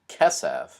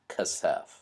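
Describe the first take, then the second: First: The stress is on the first syllable. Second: The stress is on the second syllable. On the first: The speaker calls it right. "the first syllable is almost always the accented syllable" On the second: The speaker calls it wrong. "not kasef"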